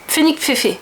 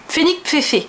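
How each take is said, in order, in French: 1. Le nom est prononcé à la française. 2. Le nom est prononcé à la française.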